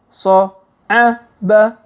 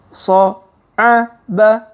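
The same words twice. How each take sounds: No difference in how they are said.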